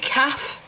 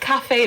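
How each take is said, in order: First: The word is said as one short syllable. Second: The word is said with two syllables. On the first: The speaker calls it wrong. "They say calf" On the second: The speaker calls it right. "the people don't pronounce it like cafe though"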